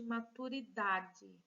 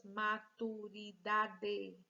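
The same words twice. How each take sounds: First: MATURIDADE said slowly, weight on DA; stressed syllable. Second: MATURIDADE slowly, as ma, tu, ri, da, de; syllable by syllable. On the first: Teacher showing pupils the strong syllable, stressed on DA. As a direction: stretch the "da" in "maturidade", ending in "dji". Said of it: "Qual é a sílaba forte?". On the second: Teacher counting five syllables for pupils, syllable by syllable. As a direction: give each syllable of "maturidade" equal weight. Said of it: "Cinco sílabas". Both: Shown as a demonstration.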